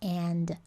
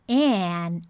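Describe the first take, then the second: First: The word ends with a clear final D sound. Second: The word ends without a final D sound. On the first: "ao invés de and" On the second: "é comum encontrar a pronúncia dele como an"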